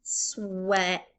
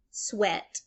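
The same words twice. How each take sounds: First: "sweat" split as SWE, pause, ET; sounded out. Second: Said in the usual way. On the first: Shown as a demonstration. Teacher giving the first syllable, "sweat" slowly broken up. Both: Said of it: "my first syllable is sweat".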